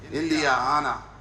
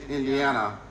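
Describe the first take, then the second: First: The emphasis is shifted, like India Anna. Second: It is said as the usual state name.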